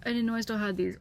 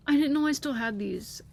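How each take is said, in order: First: Said in the usual way. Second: Higher and louder, thrilled disbelief; excited. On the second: Real, not acted. Still reeling from finding old drawings, excited. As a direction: blurt it out amazed.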